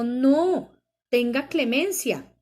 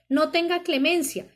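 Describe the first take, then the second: First: There is a pause after no. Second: It is said with no pause after no.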